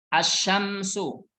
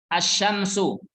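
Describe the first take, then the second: No difference in how they are said.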